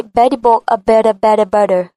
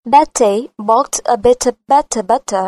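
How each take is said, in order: First: American accent, "Betty" and "better" with a D-like T; flat American accent. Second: British accent, every T sharp and crisp. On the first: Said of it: "Mà cô sẽ nói giọng rất bằng". (giọng Mỹ, "Betty" đọc như "Beddy") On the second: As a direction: say it the British way, clipped T sounds. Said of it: "Giọng cô giòn và sắc". (giọng Anh, âm T giòn và sắc) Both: Shown as a demonstration.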